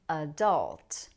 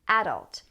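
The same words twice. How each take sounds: First: The stress is on the second syllable. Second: The stress is on the first syllable. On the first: "this has stress on the second syllable" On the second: "some people put stress on the first syllable"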